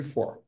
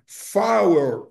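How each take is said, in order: First: "for" short, one syllable, like fór; "for" as a single short syllable; plain for. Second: "four" slow, as fow-er; "four" as fow-er, slowly; four as fower. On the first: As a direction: clip "for" to one quick syllable. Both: Shown as a demonstration. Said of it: "pra diferenciar o número quatro".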